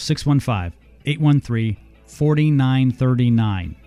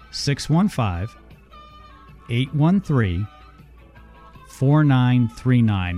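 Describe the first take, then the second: First: The number is said at normal speed. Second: The number is said slowly.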